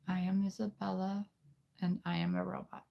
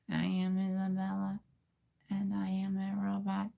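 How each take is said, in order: First: It is said in a put-on girl's voice. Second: It is said in a girl's robot voice. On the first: "We'll we'll do the girl voice here" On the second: "Now let's try to put those two together"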